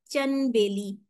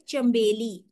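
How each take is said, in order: First: चन बेली with the नून clearly sounded, n before b; चन बेली with an audible n; wrong pronunciation. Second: चंबेली with the n turned to m before b; चंबेली with a hidden nasal m; correct pronunciation. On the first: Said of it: "अब ये word तो गलत हो गया". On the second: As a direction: say चंबेली as cham-beli, lips closing into m. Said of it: "नून इसमें मैंने छुपा लिया". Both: Shown as a demonstration.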